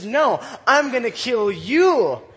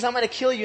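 First: Slow, loud comeback, punching "I'm" and "you"; defiant David retort. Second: Quick, offhand retold threat; brisk recap of a threat; retold Goliath threat. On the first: Acted. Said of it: "But Deli-, David says". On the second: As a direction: rattle off the threat fast. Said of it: "So Goliath tells him all these things".

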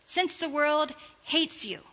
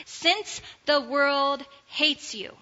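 First: Said in the usual way. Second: "Since" leaned on, read slowly and deliberately; slow, stressed since. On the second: Shown as a demonstration. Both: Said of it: "let's read it that way".

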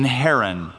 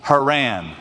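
First: Haran said HAIR-un, stressed first; mistaken place pronunciation. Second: Haran as huh-RAN, stress last; corrected place pronunciation. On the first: Slip while reading the verse, Haran stressed on first syllable. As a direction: say Haran like the person's name, HAIR-un. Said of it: "Oh, excuse me". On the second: Correcting himself to the place name, Haran stressed on last syllable. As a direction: put the weight on the second syllable of Haran. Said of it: "emphasis on the last syllable". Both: Real, not acted.

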